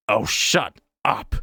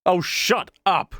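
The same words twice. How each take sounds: First: Said in the usual way. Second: Roaring back. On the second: A narrator's reading. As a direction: bite back at the heckler. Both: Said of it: "Callie roared back".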